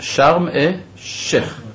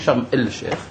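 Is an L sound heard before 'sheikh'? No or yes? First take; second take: no; yes. First: The L is dropped and the sh doubled. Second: The L is clearly pronounced before sheikh. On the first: The speaker calls it right. "אבל אני אומר" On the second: The speaker calls it wrong. "לא אומרים שרם אל שייך"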